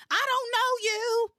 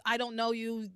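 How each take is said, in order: First: High and loud hammed-up soap line; mock dramatic outburst. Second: Said in the usual way. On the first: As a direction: overplay it like a soap actress. Replaying the repetitive dialogue.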